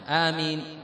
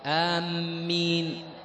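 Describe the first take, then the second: First: The first vowel is short, with a single m. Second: The first vowel is short, with a doubled m. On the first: "بتخفيف الميم وبالقصر" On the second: "القصر مع التشديد"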